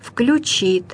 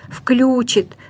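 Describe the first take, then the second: First: The stress is on the last syllable. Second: The stress is on the first syllable. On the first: The speaker calls it right. "надо говорить" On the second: The speaker calls it wrong. "говорят"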